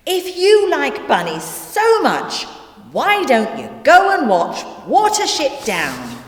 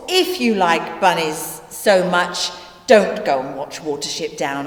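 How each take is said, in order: First: High-pitched, exasperated retort; exasperated suggestion. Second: "don't" weighted, pitch falling away after it; stress on DON'T. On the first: Narrator to bunny-loving Nelson, exasperated. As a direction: send them off with raised pitch and fed-up force. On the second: Narrator warning Nelson on second thoughts, stressing "don't". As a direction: lean gravely on "don't" as a warning. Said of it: "I cannot stress that enough". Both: Acted.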